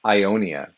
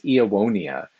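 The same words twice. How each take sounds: First: Said in the usual way. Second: Ionia said the early Greek way, opening on "ee" rather than "eye"; original Greek pronunciation. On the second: Shown as a demonstration. Lecturer shows how Ionia was first pronounced, early Greek pronunciation. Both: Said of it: "initially pronounced Ionia".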